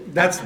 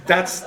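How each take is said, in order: Both takes have the same delivery.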